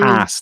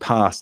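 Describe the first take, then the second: First: It is said with an American accent. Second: It is said with a southern English accent. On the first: The speaker calls it wrong. "I've been singing in more of an American accent, like" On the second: The speaker calls it right. "but I don't say that. So I say"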